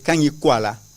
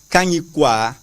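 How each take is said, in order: First: The word ends with the added syllable 'la'. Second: The word ends with the syllable 'kwa'. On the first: The speaker calls it wrong. "they say Kanyikwala. That is not our pronunciation" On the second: The speaker calls it right. "That is not our pronunciation"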